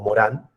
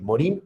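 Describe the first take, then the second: First: The name ends in a French nasal 'an' sound. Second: The name is read as spelled, ending in 'in'. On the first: "pronunciado en francés suena Morán" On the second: "se escribe Morin, pero se puede decir Morin"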